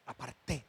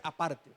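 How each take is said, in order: First: "aparté" stressed on the final TÉ; low, soft "aparté" with the weight on the last syllable; corrected stress. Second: "aparte" stressed on PAR, the ending light; low, soft "aparte" with the weight on PAR; wrong stress. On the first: Preacher giving the congregation the right word, "aparté" stressed on TÉ. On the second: Preacher rejecting a misreading, "aparte" stressed on its middle syllable. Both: Shown as a demonstration. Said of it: "No es aparte".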